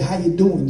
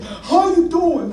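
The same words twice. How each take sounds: First: Said in the usual way. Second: High, slow, drawn-out hello; imitated older man's hearty greeting; elderly hiker's greeting. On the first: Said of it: "I figured he said". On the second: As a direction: call out a friendly greeting, higher and slower. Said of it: "this guy's like".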